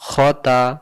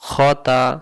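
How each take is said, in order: Both takes have the same delivery.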